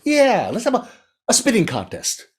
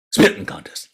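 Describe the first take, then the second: First: High frog voice pitching an idea; squeaky, excited little frog; eager frog. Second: Breath-heavy, voiceless question; incredulous storybook big cat; doubtful tiger. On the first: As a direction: sell the tiger a new challenge. Frog proposes spitting contest. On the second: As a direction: echo it back, baffled. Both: A narrator's reading.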